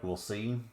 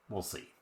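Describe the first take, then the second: First: Said in the usual way. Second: Soft repeat. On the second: Real, not acted. Repeats "we'll see" as a musing aside.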